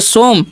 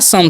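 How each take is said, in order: First: It is said with an 'o' vowel: 'som'. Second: It is said with a short 'u' vowel: 'sum'. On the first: The speaker calls it wrong. "सोमे नहीं पढ़ना है ना सोम पढ़ना है" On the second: The speaker calls it right. "तो क्या हो जाएगा, सम"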